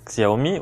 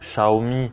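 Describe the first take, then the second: First: The name is pronounced with French-style sounds. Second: The name is pronounced with Chinese-style sounds.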